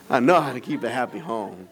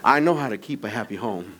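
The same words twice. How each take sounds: First: Said in the usual way. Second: Laughing. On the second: Real, not acted.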